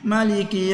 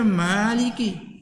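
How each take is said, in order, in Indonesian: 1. Vokal pertama itu pendek. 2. Vokal pertama itu panjang. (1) "tu kata salah" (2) "Kena baca Maliki"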